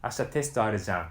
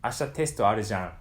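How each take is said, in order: Both takes have the same delivery.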